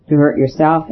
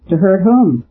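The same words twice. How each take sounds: First: Said in the usual way. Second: Sharp question, whom pushed up high. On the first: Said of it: "answered the priest". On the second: A narrator's reading. Cutler to the priest, a sharp question stressing whom. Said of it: "Cutler said sharply".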